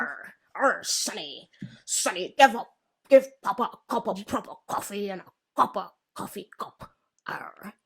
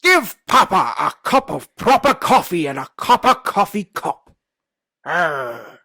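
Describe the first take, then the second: First: Put-on pirate accent. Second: Loud, slow hammed-up pirate accent with a laugh. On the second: Friend's challenge, pirate accent, loud and laughing. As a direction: growl it out like a one-eyed pirate. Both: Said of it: "the accent is a pirate accent".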